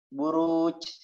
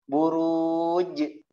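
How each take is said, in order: First: The final j carries an added ch-like sound. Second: The final j ends clean without any ch sound. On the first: The speaker calls it wrong. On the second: The speaker calls it right.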